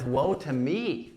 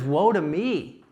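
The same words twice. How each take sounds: First: Quiet lament. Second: Louder declaration. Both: Acted. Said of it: "literally declaring God's judgment on himself".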